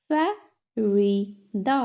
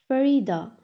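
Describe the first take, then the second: First: "Farida" slowly split as fa, ri, da; three separate beats on "Farida"; syllable by syllable. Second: Said in the usual way. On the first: Shown as a demonstration. Teacher has class repeat, "Farida" broken in three. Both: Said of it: "तीन syllables में divide".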